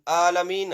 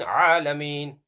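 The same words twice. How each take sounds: First: Plain first A in ALAMEEN; Hamza reading. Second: Throaty Ayn starting ALAMEEN; Ayn reading. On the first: Teacher alternating readings for pupils, plain-vowel ALAMEEN. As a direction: open ALAMEEN on a clean unsqueezed vowel. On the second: Teacher alternating readings for pupils, throaty Ayn. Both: Shown as a demonstration. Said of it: "See the difference?".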